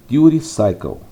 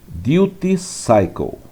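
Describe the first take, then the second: First: It is said quickly with softened middle sounds. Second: It is said carefully with every sound clear. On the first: "se você fala rapidamente no inglês americano" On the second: "Essa é a pronúncia"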